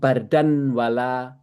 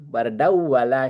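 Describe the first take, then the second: First: The n is pronounced clearly before the w. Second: The n merges into the following w sound. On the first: The speaker calls it wrong. "nggak bisa ngomong bardan wala susah bagi mereka" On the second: The speaker calls it right. "Makanya bardau bardau bardau wala syaraba"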